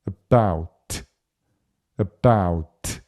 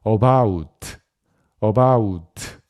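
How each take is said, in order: First: About with a swallowed first vowel, stress on bout; schwa about. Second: About said as Korean 어바웃 with full vowels; wrong Korean-style about, every syllable full; heavy Korean loanword about; Konglish about. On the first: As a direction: throw away the a in about, land on bout. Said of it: "요렇게 소리가 납니다". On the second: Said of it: "이렇게 절대로 안 됩니다". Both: Shown as a demonstration.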